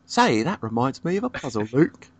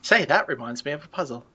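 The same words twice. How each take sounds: First: Put-on copying the British accent; mock British accent, echoing the line. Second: A put-on British accent, a bit higher. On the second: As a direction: say it like a posh Brit. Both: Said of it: "we're breaking out that accent".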